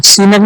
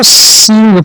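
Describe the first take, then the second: First: सीनग split in two, "see-nag"; wrong reading. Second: सींग as one syllable, "seeng"; correct nasal reading. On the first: Teacher showing pupils what not to read, सीनग as "see-nag". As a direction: say सीनग with a full n and extra vowel. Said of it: "सीनग नहीं पढ़ेंगे". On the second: Teacher giving pupils the right reading, सींग in one nasal syllable. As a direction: nasalise सींग, no vowel before the g. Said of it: "इसको सींग पढ़ेंगे". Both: Shown as a demonstration.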